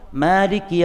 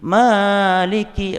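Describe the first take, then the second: First: The vowel in Maliki is held only briefly. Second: The vowel in Maliki is drawn out long. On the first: The speaker calls it right. "Malik itu dua harokat" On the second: The speaker calls it wrong. "itu kacau itu cuma... kepanjangan"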